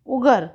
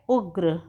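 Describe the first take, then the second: First: उगर with an extra vowel, ug-ar; उगर said the wrong way, ug-ar; wrong split pronunciation. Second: उग्र with a tight gr cluster; उग्र said correctly, ugr. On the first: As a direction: split उगर into two open syllables. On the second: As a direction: say उग्र with no vowel between g and r. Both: Shown as a demonstration. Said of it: "उगर नहीं होता है".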